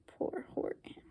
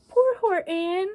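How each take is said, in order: First: Very soft breathy whisper of pity. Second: Higher, pitying aside; pitying sigh. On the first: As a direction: whisper it sadly. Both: A narrator's reading. Narrator pities Horton.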